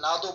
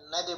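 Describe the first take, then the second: First: নাদু run together as one word; wrong way. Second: না দে split, dal bounced with qalqala; correct way. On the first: Teacher shows students the common mistake, নাদু said wrongly. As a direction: say নাদু blurred, the wrong reading. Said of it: "নাদু বললে তো হবে না". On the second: Teacher shows students the right reading, না দে split clearly. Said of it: "না দে বলতে হবে". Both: Shown as a demonstration.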